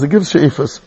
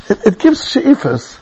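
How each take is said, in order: First: Said in the usual way. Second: "gives" drawn out slowly with a heavy falling stress; slow emphasis. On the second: Shown as a demonstration. Preacher urging listeners to seek a study partner, slow emphatic stress. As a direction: lean on "gives" and let it fall slowly.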